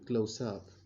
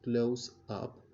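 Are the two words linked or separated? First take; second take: linked; separated. First: The two words are linked together smoothly. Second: The two words are said separately. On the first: The speaker calls it right. "but he say close up" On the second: The speaker calls it wrong. "doesn't say close up"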